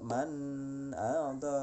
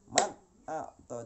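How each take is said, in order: First: The n sound is held on with a nasal hum. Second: The n sound is clear and lasts one beat. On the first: The speaker calls it wrong. "nah itu itu bukan idhar namanya itu ya, itu uh, guna itu ya. Kenapa? Karena ada sisa" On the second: The speaker calls it right. "jadi bunyi bunyi non matinya itu habis dalam satu ketukan"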